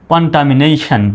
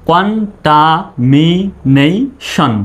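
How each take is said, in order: First: Said in the usual way. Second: contamination drawn out syllable by syllable; slow teacher demo. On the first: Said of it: "fast repeat". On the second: Shown as a demonstration. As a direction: stretch each syllable for the class. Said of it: "ভেঙে ভেঙে demo".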